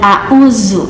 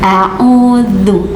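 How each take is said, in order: First: The middle consonant is a plain 'z' sound. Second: The middle consonant is 'th' with tongue between teeth. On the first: The speaker calls it wrong. "bukan a'uzu" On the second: The speaker calls it right. "du-nya digigit lidahnya ya, keluar sedikit lidahnya"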